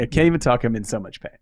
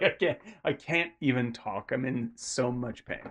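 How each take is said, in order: First: Louder at the start, then dropping back; a bit more forceful cry of pain; pained outburst. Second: Pained, subdued. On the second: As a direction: let the words sink, barely getting them out. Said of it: "he's just like". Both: Retold or imitated.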